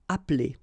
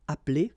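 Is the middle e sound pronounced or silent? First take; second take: silent; silent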